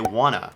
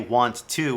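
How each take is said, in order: First: The words are blended into one reduced word. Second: Both words are said fully and separately. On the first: The speaker calls it right. "we say wanna" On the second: The speaker calls it wrong. "Most Americans don't say want to"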